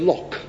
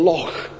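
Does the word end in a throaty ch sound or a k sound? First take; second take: k sound; ch sound. First: The word ends in a hard k sound. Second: The word ends in a throaty ch sound. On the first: The speaker calls it wrong. "And they'll say Loch. He could not pronounce it" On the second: The speaker calls it right. "asking an Englishman to say Loch"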